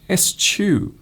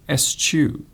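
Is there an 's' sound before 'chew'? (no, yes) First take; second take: yes; yes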